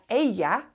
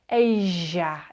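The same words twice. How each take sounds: First: The double L is a short y sound. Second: The double L is a longer sound. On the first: This is the usual pronunciation in most places. "it's a y sound generally" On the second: This is how it is said in Buenos Aires. "It's a longer sound"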